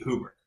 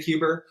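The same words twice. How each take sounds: First: "Huber" with a plain oo after the H; original pronunciation HOO-ber. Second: "Huber" with a you sound after the H; family pronunciation HYOO-ber. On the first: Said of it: "it should be". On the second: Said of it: "My family pronounces it". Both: Shown as a demonstration.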